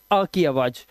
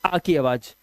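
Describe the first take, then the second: No difference in how they are said.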